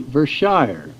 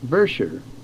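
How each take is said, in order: First: It uses the common outsider pronunciation. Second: It uses the local residents' pronunciation. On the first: The speaker calls it wrong. "we usually say Vershire" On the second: The speaker calls it right. "the correct pronunciation by the people there is Vershire"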